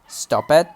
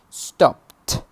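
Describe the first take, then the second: First: The ending is an extra 'id' syllable. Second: The ending is a single t sound. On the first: The speaker calls it wrong. "some students sometimes say" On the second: The speaker calls it right. "we pronounce them like t"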